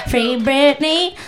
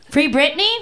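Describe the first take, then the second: First: "Free Britney" slow, each word stretched; slow, deliberate "Free Britney", lifting at the end; drawn-out rallying call. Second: "Free Britney" as a quick rising question; "Free Britney" asked lightly with a lift at the end; questioning echo. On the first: Pretend. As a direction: draw out "Free Britney" like a slogan. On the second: Real, not acted. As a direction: check the shouted suggestion, "Free Britney?". Echoes audience suggestion as question.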